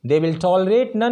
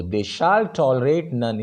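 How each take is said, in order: First: Said in the usual way. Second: Shall slow and forceful; stress on shall. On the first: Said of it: "simply आपने बोल दिया". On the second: Shown as a demonstration. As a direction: insist with determination. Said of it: "जोर लगा के बोला". (shall पर ज़ोर देकर, सख़्ती से)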